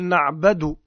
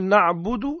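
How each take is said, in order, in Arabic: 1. الحركة بعد الباء فتحة. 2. الحركة بعد الباء ضمة. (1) "يقول نعبد بالفتح" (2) "عوض أن يقول نعبد"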